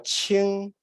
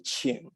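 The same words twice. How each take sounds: First: The pitch stays level throughout the syllable. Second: The pitch dips down and then rises. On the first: "qing is a flat tone" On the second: "You actually go down in pitch and then up. That would be qing"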